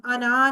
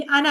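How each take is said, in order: First: अना with the ना held long; wrongly long अना. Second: अना with a very short ना. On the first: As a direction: drag out the last vowel of अना. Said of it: "नहीं बोलना". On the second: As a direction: cut the last vowel of अना short. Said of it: "नून को बहुत short बोलना है". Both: Shown as a demonstration.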